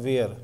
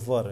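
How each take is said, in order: First: The vowel glides like the word 'wear'. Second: The vowel is a short 'ur' sound. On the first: The speaker calls it wrong. "इसे अगर आप ऐसे बोलते हैं ना वेयर, तो ये गलत है" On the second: The speaker calls it right. "ये वर है"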